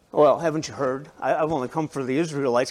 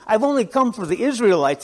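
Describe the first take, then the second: First: Lower, quicker, playful testing tone; teasing with a smile. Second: Said in the usual way. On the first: Retold or imitated. Jesus teasing the woman who asks for healing, smiling. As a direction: tease her gently, smiling through it. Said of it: "Can't you see a little smile on his face?". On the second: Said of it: "Jesus isn't saying".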